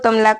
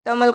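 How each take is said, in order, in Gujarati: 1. નામ વધારાના a સ્વર સાથે પૂરું થાય છે. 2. નામ વ્યંજન l પર પૂરું થાય છે. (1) "તમલા કહો" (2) "તમલ કહો"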